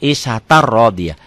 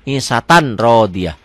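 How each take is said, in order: First: The n merges into a doubled r sound. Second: The n is clearly pronounced before the r. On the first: The speaker calls it right. "jadi isatar rodiyah" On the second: The speaker calls it wrong. "Pemula akan baca begitu"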